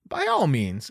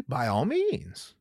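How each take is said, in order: First: Said in the usual way. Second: Slow, quiet invitation. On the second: Real, not acted. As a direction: draw it out, softly daring.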